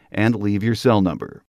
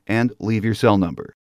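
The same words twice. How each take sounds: The two takes are said the same way.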